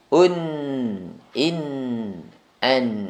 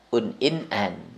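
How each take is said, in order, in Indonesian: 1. Setiap bunyi sengau di akhir ditahan selama dua ketukan. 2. Setiap bunyi sengau di akhir dipotong pendek, kurang dari dua ketukan. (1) "tanwin dua ketukan"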